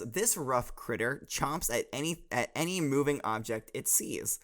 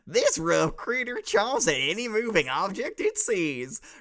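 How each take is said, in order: First: It is read in the speaker's plain voice. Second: It is read in a put-on hillbilly accent.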